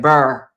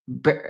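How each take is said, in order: First: The word is said with a St. Louis 'burr' vowel. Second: The word is said with a plain vowel. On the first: The speaker calls it right. "how they say it in in Saint Louis" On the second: The speaker calls it wrong. "damn, I can't even say it now"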